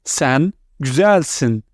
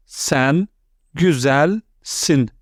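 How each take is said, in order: First: Said in the usual way. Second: "Sen", then "güzelsin." drawn out slowly; slow split model pronunciation. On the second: Shown as a demonstration. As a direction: say "güzelsin." slowly and clearly after a pause. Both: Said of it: "Let's continue".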